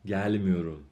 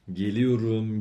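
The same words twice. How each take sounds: First: گل میوروم with گل stressed and a fall. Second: گلیوروم with stress on the final syllable; stress at end. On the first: Teacher models negative stress for students, گل stressed. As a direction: lean on گل, then drop through میوروم. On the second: Teacher models positive verb for students, end-stressed. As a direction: let گلیوروم peak at its end. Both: Shown as a demonstration.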